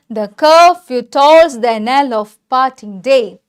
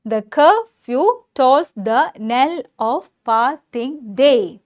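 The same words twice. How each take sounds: First: Slow, measured reading of the verse line; slow recitation. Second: "The curfew tolls the knell of parting day" very slow, a gap after each syllable. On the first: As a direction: recite the line slowly, in connected phrases. (കവിതാവരി സാവധാനം ചൊല്ലുക) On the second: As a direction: break "curfew" and "parting" into separate syllables, as in scanning iambs. ("The curfew tolls the knell of parting day" ഓരോ അക്ഷരമായി നിർത്തി നിർത്തി) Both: Shown as a demonstration. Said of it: "അങ്ങനെ ഞാനിത് പറയാൻ കാരണം".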